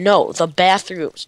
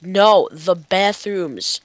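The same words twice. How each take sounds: First: Said in the usual way. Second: Slow, stretched "No, the bathrooms"; exasperated repeat. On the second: Retold or imitated. Player imitating frustrated directions, slowly stretching "bathrooms". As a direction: drag out "bathrooms" to spell it out. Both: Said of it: "Like, I'll be like".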